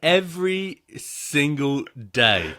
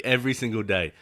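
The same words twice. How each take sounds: First: EVERY SINGLE DAY, very slow, each word stressed; slow, weighty emphasis on every word of "Every single day"; emphatic. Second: Said in the usual way. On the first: Real, not acted. Emphatic complaint, then repeated plainly.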